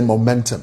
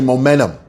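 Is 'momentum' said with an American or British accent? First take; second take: British; American. First: It is said with a British accent. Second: It is said with an American accent. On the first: "The British say momentum" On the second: "The Americans say momentum"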